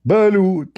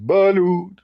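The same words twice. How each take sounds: First: Loud high vendor cry; vendor shout. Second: Sudden high call of a vendor; street vendor call. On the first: The beach vendor shouting right behind him, loud cry. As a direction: holler it like a hawker selling eggs. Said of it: "each time he screamed, he screamed loud". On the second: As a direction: call it out like a beach seller. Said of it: "a guy stand behind me and said". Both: Retold or imitated.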